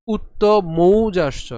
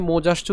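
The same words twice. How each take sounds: First: মৌজাশ্চ with a long, loud au diphthong; slow মৌজাশ্চ, gliding o to u; correct au vowel. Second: মৌজাশ্চ said quickly as mojashcho, plain o; wrong vowel shown. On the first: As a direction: stretch the mou in মৌজাশ্চ. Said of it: "ঔকার রয়েছে এজন্য আমাদের উচ্চারণটি". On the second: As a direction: flatten mou to mo in মৌজাশ্চ. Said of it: "উচ্চারণ করলে হবে না". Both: Shown as a demonstration.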